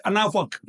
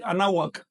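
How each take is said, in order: First: Anáhuac with the hu even more closed, nearly b or f; women's pronunciation. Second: Anáhuac with a closed w for the hu; men's pronunciation. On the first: Teacher showing how women pronounce it, more closed. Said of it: "Y las mujeres". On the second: Teacher showing how men pronounce it, slightly closed w. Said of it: "Los hombres la pronuncian así". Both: Shown as a demonstration.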